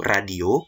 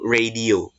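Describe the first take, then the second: First: It is pronounced the Indonesian way. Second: It is pronounced the English way. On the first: "Kalau dalam bahasa Indonesia itu radio" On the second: "kalau dalam bahasa Inggris itu radio"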